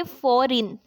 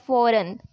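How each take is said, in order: First: "फॉरेन" mispronounced with an "-in" ending; wrong pronunciation. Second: "फॉरेन" with a short, weak second vowel; correct pronunciation. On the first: Teacher showing students what to avoid, "फॉरेन" said as "fo-reen". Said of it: "ना कि फॉरेन". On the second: Teacher modelling the correct word for students, "फॉरेन" ending in "-run". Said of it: "correct pronunciation है फॉरेन". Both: Shown as a demonstration.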